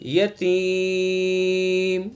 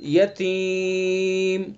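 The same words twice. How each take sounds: First: The long vowel is held for four counts. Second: The long vowel is held for three counts. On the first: "चार अलिफ हो गए" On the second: "तीन अलिफ हो गए"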